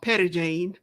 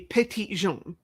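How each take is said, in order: First: The name is pronounced with English sounds. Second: The name is pronounced with French sounds. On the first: The speaker calls it wrong. "Arkansas is nothing if not butchering French language" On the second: The speaker calls it right. "if you want to pronounce it correctly"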